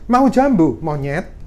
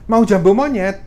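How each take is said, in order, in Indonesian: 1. Ada jeda yang memisahkan 'jambu' dari 'monyet'. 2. Kata 'jambu monyet' tersambung tanpa jeda. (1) "itu orangnya bisa marah" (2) "Kalau beri tawaran ke orang"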